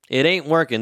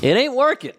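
First: Said in the usual way. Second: Louder, higher: It ain't working said up high. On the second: Shown as a demonstration.

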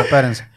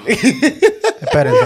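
First: Low quick laugh-through word; laughing plain repeat. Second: Stretched high through laughter; laughing high drawn-out plea. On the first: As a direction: drop back down, still chuckling. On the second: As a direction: drag it out high while laughing. Laughing, begs others to wait. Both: Real, not acted.

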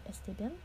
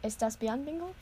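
First: Unsure Spanish, "Este bien" said softly with a questioning rise; groping for the right Spanish; fumbled Spanish. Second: "Estás bien" said with the s, tune rising high on Bingle; fixing the phrase, asking the dog; corrected Spanish. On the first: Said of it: "I have not taken fucking Spanish". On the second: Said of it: "Give me a hot second". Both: Shown as a demonstration.

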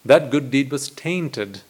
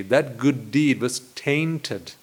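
First: That good deed was tainted, slow, tainted stressed; repeating tainted with slow weight; slow emphasis. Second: That good deed was tainted, slow, each word weighed; emphasising the word tainted, slowly. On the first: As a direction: dwell on the word tainted. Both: Shown as a demonstration. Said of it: "I use this word deliberately".

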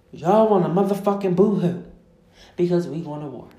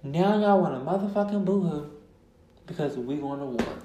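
First: Loud, scolding jab at the crybabies; exasperated rant. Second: The scolding line repeated with less force; restrained scolding. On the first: Podcaster scolding Americans afraid of war, loud exasperation. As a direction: belt it out, dropping off at the end. Angry rant, first take. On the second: Podcaster repeating her rebuke about war, restrained scolding. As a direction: say it pointedly, then let it sink. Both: Real, not acted.

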